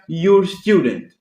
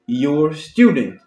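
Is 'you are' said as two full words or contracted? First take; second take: contracted; contracted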